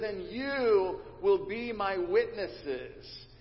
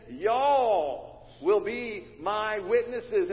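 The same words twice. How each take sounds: First: Said in the usual way. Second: Slow Southern "Y'all will be my witnesses", stressing "Y'all"; louder, slow emphatic Southern "Y'all"; Southern plural. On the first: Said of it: "it is the plural form". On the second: Shown as a demonstration. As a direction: punch "Y'all" with a drawl. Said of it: "He's saying".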